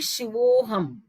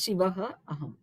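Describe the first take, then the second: First: The words are joined into one word. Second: There is a pause between the two words. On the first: The sandhi rule applies when read together. "when I'm reading it together" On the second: The sandhi rule does not apply after a pause. "if I'm giving a pause after Shiva"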